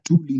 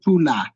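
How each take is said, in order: First: The second syllable ends in an i vowel. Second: The second syllable ends in an a vowel. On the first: The speaker calls it right. "it's still a truly" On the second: The speaker calls it wrong. "not tula"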